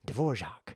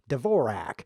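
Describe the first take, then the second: First: The name is said the Czech composer's way. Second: The name is said in an anglicized way. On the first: The speaker calls it right. "that's the correct pronunciation of the famous composer" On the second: The speaker calls it wrong. "which they shouldn't think"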